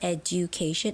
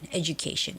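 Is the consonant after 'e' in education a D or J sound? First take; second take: D; J. First: The middle consonant is a plain D sound. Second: The middle consonant is a J sound. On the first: The speaker calls it wrong. "like the D sound, but it's not education" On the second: The speaker calls it right. "more like a j, j, j sound"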